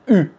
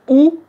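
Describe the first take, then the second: First: The vowel is a front rounded 'u' sound. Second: The vowel is a rounded 'oo' sound. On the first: It names the single letter U. The speaker calls it right. "pensez bien U" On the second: It sounds like two letters, O and U. The speaker calls it wrong. "si vous dites ou, un Français... il va penser que vous donnez deux lettres"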